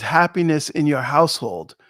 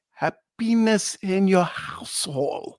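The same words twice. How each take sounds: First: Said in the usual way. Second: Slow, heavily put-on French-Canadian accent; mock French-Canadian accent. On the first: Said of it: "what they're saying is". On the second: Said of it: "but they say".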